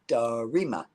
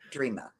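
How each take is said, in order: First: The name is said with three syllables. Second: The name is said with two syllables. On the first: "that version of Dreama" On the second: "Does she spell it like I do? D R E A M A"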